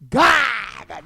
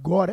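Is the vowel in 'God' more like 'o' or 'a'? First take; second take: a; o. First: The vowel sounds like an 'a'. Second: The vowel sounds like an 'o'. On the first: "they the O, they turn at A" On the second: "Not God, eh?"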